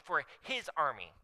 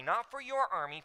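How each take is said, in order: First: HIS picked out firmly, then falling away; stress on HIS. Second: YOUR picked out as the rejected option; stress on YOUR. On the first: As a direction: land on "his" as the correction. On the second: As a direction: lean on "your" in contrast. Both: Shown as a demonstration. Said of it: "there was an emphasis that I put".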